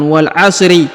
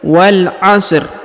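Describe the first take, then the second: First: The word ends with an added i vowel. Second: The word ends on the consonant r. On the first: The speaker calls it wrong. "bukan wal 'asri ya" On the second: The speaker calls it right.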